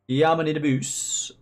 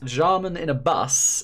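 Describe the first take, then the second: First: It is said in a Dutch accent. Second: It is said in the speaker's ordinary accent.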